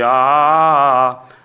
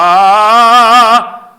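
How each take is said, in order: First: It is said in a plain, natural voice. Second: It is said in an operatic voice with vibrato.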